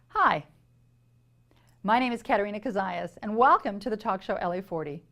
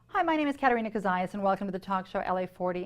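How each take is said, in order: First: It is said with noticeable pauses. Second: It is said without noticeable pauses.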